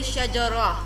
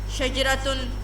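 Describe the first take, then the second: First: The word ends on a plain vowel. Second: The word ends with a final -tun sound. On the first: The speaker stops after this word. "then you will say shajara because you are stopping" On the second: The word is joined to the next word. "if you want to join the word with other word"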